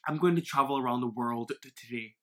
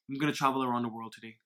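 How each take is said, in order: First: The D at the end of 'world' is pronounced. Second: The D at the end of 'world' is dropped. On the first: The speaker calls it wrong. "a very unnatural pronunciation" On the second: The speaker calls it right. "you drop the emphasis on D"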